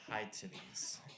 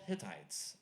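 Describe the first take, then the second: First: The first syllable sounds like 'high'. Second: The first syllable sounds like 'hit'. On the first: The speaker calls it wrong. "the kid pronounced it high titties" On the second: The speaker calls it right. "it's called Hittites"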